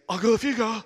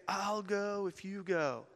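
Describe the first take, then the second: First: High, loud, blubbering voice; mock tearful. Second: Slow, high, soft platform voice; altar-call speaker. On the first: Crying man pleading with his friend, loud mock tearful blurt. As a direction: blurt it out as if through sobs. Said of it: "and I'm crying even more". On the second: Retold or imitated. Preacher telling crowd what to tell neighbors, slow gentle high voice. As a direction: say it slowly and softly, as a coaxing preacher.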